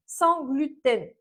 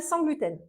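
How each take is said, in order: First: "sans gluten" slowed right down, each word leaned on; slow stress on sans gluten. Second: Said in the usual way. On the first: Shown as a demonstration. Nutritionist insisting to viewers on "sans gluten", slow and stressed. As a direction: spell out "sans gluten" deliberately. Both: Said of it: "je précise".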